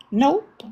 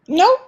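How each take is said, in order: First: Said in the usual way. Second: "Nope" jumps much higher, louder, and rises; mocking squeaky "Nope"; emphatic high "Nope". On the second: Real, not acted.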